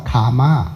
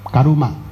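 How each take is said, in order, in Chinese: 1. 这个词读两个音节。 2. 这个词读三个音节。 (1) "那是用英文的话，那叫karma" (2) "它是三个音节的，卡玛是两个音节，它是念伽鲁玛"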